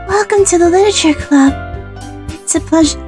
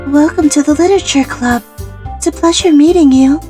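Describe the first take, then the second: First: A soft, higher Fluttershy-like voice is used. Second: A somewhat deeper Fluttershy-like voice is used.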